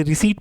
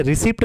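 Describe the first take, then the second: First: रिसीट as ri-seet, no P; silent P. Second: रिसिप्ट with the P pronounced; P wrongly sounded. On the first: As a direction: say रिसीट with a long 'ee' and plain T. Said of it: "इसे रिसीट पढ़ेंगे". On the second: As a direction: say रिसिप्ट as ri-sipt. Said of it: "नहीं पढ़ेंगे". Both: Shown as a demonstration.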